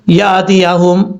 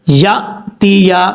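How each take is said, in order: First: The glottal stop is released with an echoing bounce. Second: The glottal stop is a clean catch without bounce. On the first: The speaker calls it wrong. "झटका देते हुए साथ कलकला भी कर जाते हैं... ऐसे नहीं करना" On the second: The speaker calls it right. "इस तरीके से पढ़ना है"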